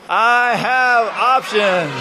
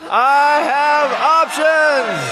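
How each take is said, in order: First: It is said with a smiling tone. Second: It is said in a really excited tone.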